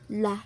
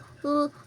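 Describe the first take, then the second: First: The L sound is followed by an 'a' vowel. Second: The L sound is said alone with no vowel. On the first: The speaker calls it wrong. "hindi nga pala siya la, la, lion. Hindi ganon" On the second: The speaker calls it right. "L, l, lion. Ganon"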